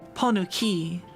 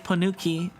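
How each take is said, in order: First: The word has a marked, showy inflection. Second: The word has a plain, flat inflection. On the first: It copies how someone else said it. "that sounds like you're saying like attache" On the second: It is the speaker's own way of saying it. "I would just say ponuki"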